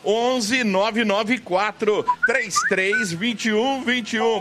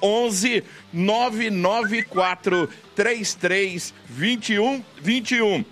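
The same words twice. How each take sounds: First: The number is said at normal, faster speed. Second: The number is said more slowly.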